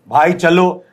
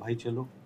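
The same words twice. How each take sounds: First: It is said loudly, matching the reply. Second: It is said softly and gently. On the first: The partner copies the other actor's fixed tone. "अब उसने भी आपका सुर पकड़ लिया" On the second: The partner speaks calmly and offers a new rhythm. "अब वो धीरे से बोल रहा है"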